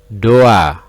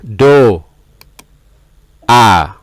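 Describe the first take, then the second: First: The syllables are joined with no pause. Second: The syllables are said apart with a pause.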